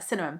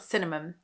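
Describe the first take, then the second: First: The word is said quickly and smoothly. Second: The word is said slowly and carefully. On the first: The speaker calls it right. "I'll just say it quickly and then it sounds better" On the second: The speaker calls it wrong. "now I can't say this word very well"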